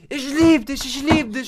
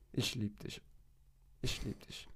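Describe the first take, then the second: First: Much higher, loud dog squeal; the dog explodes with joy; ecstatic dog voice. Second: Quiet, lower, half-whispered; giving in to the sad-eyed dog; soft murmur. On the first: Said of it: "Und was macht er?". (sehr hohe, laute Hundestimme) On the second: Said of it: "muss ich sagen". (leise, fast geflüstert) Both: Retold or imitated.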